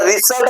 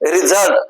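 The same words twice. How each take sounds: First: The middle consonant is a hissing s sound. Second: The middle consonant is a buzzing z sound. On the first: The speaker calls it wrong. "याला result म्हणू का आपण? नाही म्हणणार ना" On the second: The speaker calls it right. "S चा ज झाला"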